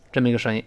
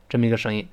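The two takes are said the same way.

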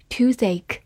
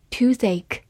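No difference in how they are said.

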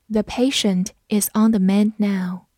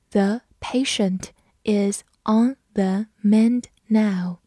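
First: Said in the usual way. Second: Slow, careful read of the sentence. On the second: Shown as a demonstration. Teacher reading slowly for students to follow. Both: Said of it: "我们慢读一遍".

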